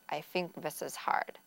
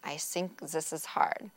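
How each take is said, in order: First: The TH sounds are said as F and V. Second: The TH sounds are said as S and Z. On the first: "Or sometimes F or a V sound to substitute" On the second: "They might use an S or Z combination"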